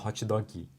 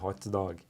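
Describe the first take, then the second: First: An extra vowel sound follows the final consonant. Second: It ends cleanly on the final consonant.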